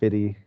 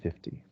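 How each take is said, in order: First: The T sound is left out. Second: The T sound is clearly pronounced. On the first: The speaker calls it wrong. "we sometimes leave it out and say fifty and twenty" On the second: The speaker calls it right. "the correct pronunciation is with the T"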